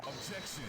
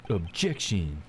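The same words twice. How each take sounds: First: Said in the usual way. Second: Low, dramatic courtroom objection; deep objection voice. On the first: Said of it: "Ray's got a deep, sultry voice". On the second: Acted. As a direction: drop the pitch and declare it. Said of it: "My objection voice".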